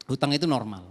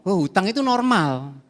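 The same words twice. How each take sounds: First: Said in the usual way. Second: Mocking the world. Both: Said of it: "Dunia itu kan ngomong".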